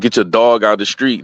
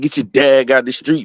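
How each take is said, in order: First: The word dog has a standard vowel. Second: The word dog has a local accent vowel. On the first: This is not how people there say it. "they don't say that shit" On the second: This is how people there actually say it. "They be like"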